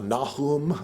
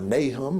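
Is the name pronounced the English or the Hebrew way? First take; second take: Hebrew; English. First: The name is pronounced with Hebrew sounds. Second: The name is pronounced with English sounds. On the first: "Kfar Nahum in Hebrew" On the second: "as we would pronounce it in English"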